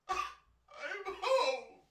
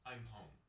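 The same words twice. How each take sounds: First: It is said with strong emotion, exclaimed. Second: It is said flatly, as a plain statement.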